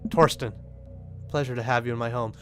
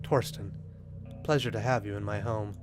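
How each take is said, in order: First: It is said in a plain, ordinary voice. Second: It is said in a cool, suave, romantic voice.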